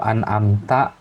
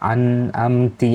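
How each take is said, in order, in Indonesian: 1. Kata itu berakhir dengan vokal a. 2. Kata itu berakhir dengan vokal i. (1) "harusnya dibaca ta" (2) "Ti ya, harusnya dibaca ta"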